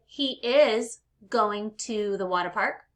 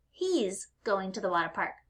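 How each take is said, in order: First: HE IS as two separate words, slower; uncontracted he is. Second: HE'S run into one syllable; contracted he's. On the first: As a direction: say "He is" in full, stressing IS. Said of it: "So you could say". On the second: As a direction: say "He's" as one quick, easy word. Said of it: "or you can say". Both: Shown as a demonstration.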